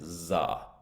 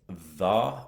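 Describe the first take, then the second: First: It begins with a buzzing z sound. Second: It begins with a soft th sound. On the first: "and za" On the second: "the difference between saying the"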